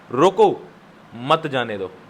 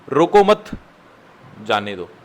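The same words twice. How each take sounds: First: The pause comes after the first word. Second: The pause comes after the second word. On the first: "दूसरी line का मतलब क्या बना?" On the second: "पहली line का मतलब क्या बना कॉमा डालने के बाद?"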